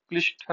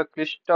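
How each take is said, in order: First: क्लिष्ट as the rejected spelling; wrong ending. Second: Said in the usual way. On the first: Shown as a demonstration. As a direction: say क्लिष्ट as transcribed, ending on 'shta'. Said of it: "नहीं होता". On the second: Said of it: "होता है".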